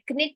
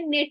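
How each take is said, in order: First: The k is pronounced before the n. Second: The k is silent before the n. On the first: The speaker calls it wrong. "क्निट नहीं होता" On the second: The speaker calls it right. "के silent होता है, ये निट होता है"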